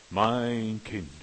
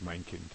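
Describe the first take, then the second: First: Louder, resonant divine address; booming God voice. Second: Much softer and lower, gentle; soft tender address. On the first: Preacher doing God addressing his child, loud and solemn. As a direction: declare it like a voice from heaven. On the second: Preacher doing a soft sentimental God voice. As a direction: murmur it tenderly. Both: Shown as a demonstration. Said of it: "Nein, Gott spricht nicht".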